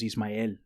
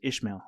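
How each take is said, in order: First: The name is said with an s sound. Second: The name is said with an sh sound. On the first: This is the original Spanish form of the name. "my name is Ismael" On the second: This is the English form of the name. "the English pronunciation of that is Ishmael"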